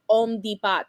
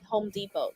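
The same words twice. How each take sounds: First: The H at the start is silent. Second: The H at the start is pronounced. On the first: The speaker calls it wrong. "She says Home Depot, something like that" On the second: The speaker calls it right. "she can't say home Home Depot"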